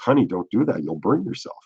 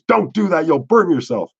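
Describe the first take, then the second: First: It is said softly and lovingly. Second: It is shouted at full volume.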